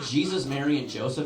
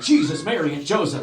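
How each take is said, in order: First: Said in the usual way. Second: Loud, high outburst; startled exclamation. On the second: Retold or imitated. Driver going over a big bump, loudly exclaiming. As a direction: cry it out like your startled father.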